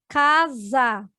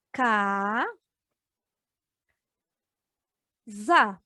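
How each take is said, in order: First: Said in the usual way. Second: "ca, za" split into separate syllables with long pauses. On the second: Shown as a demonstration. Teacher showing pupils how "casa" splits, syllable by syllable. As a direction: break "casa" into "ca" and "za", each said alone. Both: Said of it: "se nós separarmos agora por sílabas".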